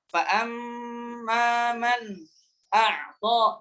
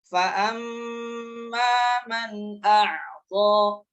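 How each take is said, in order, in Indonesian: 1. Ada jeda singkat antara man dan a'ta. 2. Man dan a'ta tersambung tanpa jeda. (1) "itu ada saktah. Nah, tidak boleh" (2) "Yang benar, yang sahih"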